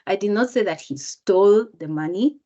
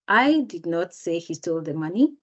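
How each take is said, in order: First: The word "stole" carries the main stress. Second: The word "I" carries the main stress. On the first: He got the money some other way. "if I change the word even stole, just by intonation" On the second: Someone else said it. "That means someone else said it"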